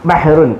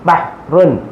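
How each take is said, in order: First: The two syllables are run together quickly. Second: The two syllables are separated by a pause. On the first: "രണ്ട് അക്ഷരങ്ങൾ അങ്ങോട്ട് ചേരുമ്പോൾ പെട്ടെന്ന് പറയണം" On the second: "ആദ്യം ഇങ്ങനെ ഇങ്ങനെയൊക്കെ നിർത്തി നിർത്തി പറയും"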